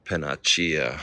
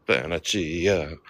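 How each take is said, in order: First: Said in the usual way. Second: Mock Italian accent. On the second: Shown as a demonstration. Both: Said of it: "Is that a good Italian accent?".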